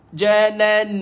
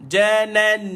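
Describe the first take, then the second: The two takes are said the same way.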